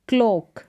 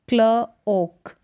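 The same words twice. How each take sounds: First: Said in the usual way. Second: क्ल ओक split by a pause; two separate parts, क्ल and ओक; sounded out. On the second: Shown as a demonstration. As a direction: say क्ल, wait, then ओक. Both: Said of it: "सी एल का उच्चारण क्ल".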